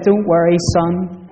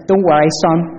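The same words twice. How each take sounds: First: Said in the usual way. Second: Put-on a light Northern Irish accent on "Don't worry, son"; hint of a Northern Irish lilt, mildly voiced. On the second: Shop assistant comforting a lost boy in a light Northern Irish accent. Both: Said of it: "in a really strong Northern Irish accent".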